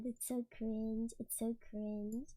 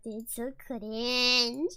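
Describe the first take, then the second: First: Low, hushed and slow; quiet cringing. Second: "cringe" stretched very long, low pitch; drawn-out CRINGE. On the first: Embarrassed by own video, quiet cringing. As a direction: say it small and low, drawn out. Cringing to herself, dropping away. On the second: Embarrassed by own video, stretching "cringe" out. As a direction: drag out "cringe" far beyond its length. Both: Real, not acted.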